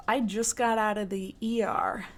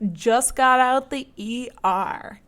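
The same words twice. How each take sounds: First: Said in the usual way. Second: Slow, louder, each word weighted; drawn-out announcer read of "Just Got Out the E R"; episode title announcement. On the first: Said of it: "this story is full improv". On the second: Shown as a demonstration. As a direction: announce the title like a show host. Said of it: "Tonight's episode is titled".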